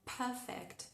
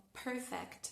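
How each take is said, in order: First: "perfect" en inglés británico, sin la R; British accent. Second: "perfect" en inglés americano, con la R marcada; American accent. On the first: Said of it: "si queremos sonar más ingleses". ("perfect" con acento británico) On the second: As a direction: di "perfect" como un estadounidense. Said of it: "si queremos sonar más estadounidenses". ("perfect" con acento americano) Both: Shown as a demonstration.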